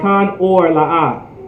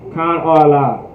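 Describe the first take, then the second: First: It is said slowly with a clear final R. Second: It is said quickly with the sounds run together. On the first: "I make sure I emphasize the R at the end" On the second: "If I say it quickly"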